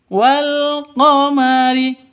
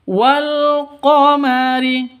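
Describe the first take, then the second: Both takes have the same delivery.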